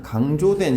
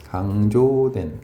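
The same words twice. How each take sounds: First: Said in the usual way. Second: Low, stretched 강조된, as if writing along; 강조된 at half speed, in a low pitch; slow dictation. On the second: Real, not acted. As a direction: draw out 강조된 slowly and low. Repeats gloss while writing.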